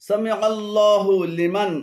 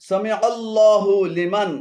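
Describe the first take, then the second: No difference in how they are said.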